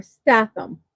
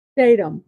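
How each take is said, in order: First: Statham said as STATH-um; short-A pronunciation. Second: Statham said as STAY-tum; long-A pronunciation. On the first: Host offering the other way to say the actor's surname, Statham as STATH-um. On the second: Host offering one way to say the actor's surname, Statham as STAY-tum. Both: Shown as a demonstration. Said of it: "depending on how you wanna say it".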